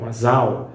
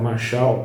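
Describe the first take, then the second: First: The middle consonant is a plain s. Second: The middle consonant is not a plain s. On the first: "alguns pronunciam como masal"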